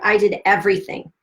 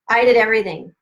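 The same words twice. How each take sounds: First: Said in the usual way. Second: "did" pushed louder, falling at the end; emphatic "did" in "I did everything"; stress on did. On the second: Real, not acted. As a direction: lean hard on "did" to insist.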